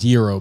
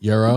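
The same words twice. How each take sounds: First: The word is said the standard way. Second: The word is said the New York way. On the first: The speaker calls it right. "it's pronounced gyro" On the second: The speaker calls it wrong. "in New York we're stupid, so we say"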